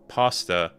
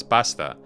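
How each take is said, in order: First: "pasta" with long back ah, PAH-stuh; back-vowel pasta. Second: "pasta" with short central Italian-like a; Italian-style pasta. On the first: Streamer compares against the Italian word, pasta with long ah. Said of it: "which one is closer to a pasta". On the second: Streamer explains the Italian word, pasta with short open a. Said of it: "it's an Italian word". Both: Shown as a demonstration.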